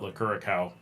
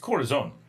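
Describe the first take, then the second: First: The name is said like 'cura cao'. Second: The name is said like 'coração'. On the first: The name is read as a healing cow. The speaker calls it wrong. "everyone says the name wrong ... as if it's a a healing cow" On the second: The name is read as the word for heart. The speaker calls it right. "It is the Portuguese version of course"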